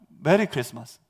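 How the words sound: It is said calmly and politely.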